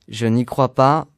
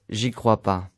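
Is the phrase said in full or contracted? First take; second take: full; contracted. First: Every syllable is pronounced in full. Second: Sounds are dropped and run together.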